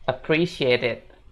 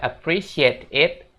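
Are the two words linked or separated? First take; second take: linked; separated. First: The two words are linked together. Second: The two words are said separately. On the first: The speaker calls it right. "tapi disambung ya" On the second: The speaker calls it wrong. "jangan dibaca appreciate it"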